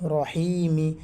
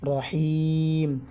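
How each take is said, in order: First: The word ends with a short i vowel. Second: The word ends on a bare m sound. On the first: "মিম জের মি" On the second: "অক্ফ করার কারণে রহিম, মিম সাকিন হয়ে যাবে"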